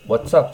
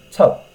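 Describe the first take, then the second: First: Said in the usual way. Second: What's up squeezed to a short "tsup" with the wha dropped; clipped what's up. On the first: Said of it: "じゃなくて". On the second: Shown as a demonstration. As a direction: bite off the front of What's up. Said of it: "和がほとんど聞こえない". (What'sのワをほぼ落として短く)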